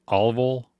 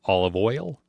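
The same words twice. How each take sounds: First: Oil said as one sound, "ol"; first take of olive oil; olive oil flat. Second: Oil said with a full "oy" glide, rising; second take of olive oil. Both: Shown as a demonstration. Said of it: "how people pronounce oil".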